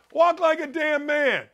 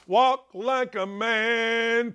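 First: Higher and punched, WALK hit hard; emphatic rant. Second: "Walk like a man" drawn out very slowly, each word weighed; slow, deliberate. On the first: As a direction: bark out "Walk like a damn man" as a command. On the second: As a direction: spell it out slowly like a lesson. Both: Real, not acted. Ranting about effeminate men.

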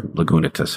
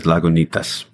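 First: Lagunitas with relaxed American vowels; Californian pronunciation. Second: Lagunitas with open Spanish vowels; Spanish-style pronunciation. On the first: Songwriter offering the Californian alternative, Lagunitas said American-style. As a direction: say Lagunitas Americanized, "luh-guh-NEE-tus". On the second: Songwriter naming a college poem, Lagunitas said Spanish-style. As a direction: say Lagunitas the Spanish way, "lah-goo-NEE-tahs". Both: Shown as a demonstration. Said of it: "however you want to pronounce it".

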